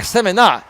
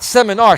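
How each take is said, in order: First: Seminar with final R dropped; mispronounced seminar. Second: Said in the usual way. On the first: Shown as a demonstration. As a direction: seminar said semi-NAH, ending in open AH. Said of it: "S E M I N A H". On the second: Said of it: "not seminar".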